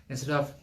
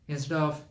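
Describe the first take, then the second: The two takes are said the same way.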